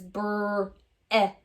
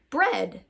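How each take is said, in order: First: "br-ed" split slowly into brr, eh, duh; sounded out, short E. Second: Said in the usual way. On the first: Shown as a demonstration. Teacher revealing the short E word, sounded out slowly. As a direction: draw out the br, then separate eh and d. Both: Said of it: "use the short E sound".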